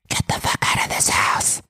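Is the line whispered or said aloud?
whispered. It is said in a quiet whisper.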